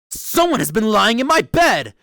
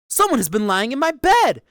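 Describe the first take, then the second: First: A great, rough, gruff bear voice. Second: An ordinary middle-sized bear voice.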